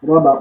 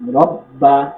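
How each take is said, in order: First: The b is single and said lightly. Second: The b is doubled and pressed firmly. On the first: The speaker calls it wrong. "তাসদিদকে হালকা করে পড়ে" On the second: The speaker calls it right. "এখানে শক্ত করে"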